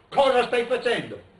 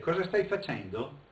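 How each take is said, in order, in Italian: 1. Il tono è secco e di rimprovero. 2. Il tono è calmo e curioso. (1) "Che vuol già dire tu stai sbagliando tutto?" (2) "Fai vedere?"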